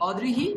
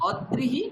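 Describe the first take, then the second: First: "অদৃহি" as o-drihi, open first vowel; fuse d with ri in "অদৃহি"; ri-kar joined. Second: "অদৃহি" as od-drihi, held d; rophola split. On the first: Teacher clarifies the ri-kar word, dri joined. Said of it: "অদয় রিকার বিসর্গ যেখানে আছে". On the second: Teacher clarifies the first word, d split off. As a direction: double the d in "অদৃহি", then drihi. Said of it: "অদয় রফলা হ্রস্ব ই আছে সেখানে". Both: Shown as a demonstration.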